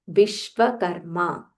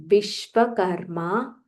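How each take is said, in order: Both takes have the same delivery.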